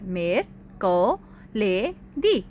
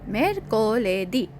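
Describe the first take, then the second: First: The word is said in separate syllable chunks. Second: The word is said smoothly as one unit. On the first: "इसे हिस्सों में भी बोलते हैं।" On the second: "अब आप पूरा लफ्ज बोले"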